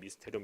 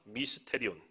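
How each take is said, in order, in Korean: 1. 이 단어는 빠르게 말했어요. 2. 이 단어는 보통 속도로 말했어요.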